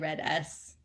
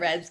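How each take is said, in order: First: The S is said as a separate letter. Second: The S is joined into one quick syllable. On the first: Other people say it this way. "Some people say Red S" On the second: It is the faster way to say it. "I say Reds because it's faster"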